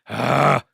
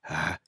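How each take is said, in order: First: A strong, harsh growling sound. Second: A very soft, gentle gurgling sound. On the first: The speaker calls it wrong. "with a legitimate growl, and that was way too much" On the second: The speaker calls it right. "I had to go even softer"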